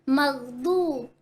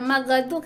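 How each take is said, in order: First: The middle consonant is smooth with no echo. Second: The middle consonant is bounced with an echo. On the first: The speaker calls it right. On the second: The speaker calls it wrong.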